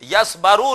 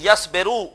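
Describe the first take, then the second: First: The vowel after the b is a. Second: The vowel after the b is i. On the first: The speaker calls it wrong. "Yes बारू नहीं" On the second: The speaker calls it right. "बल्कि यस बेरू"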